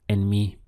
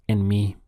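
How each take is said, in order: Both takes have the same delivery.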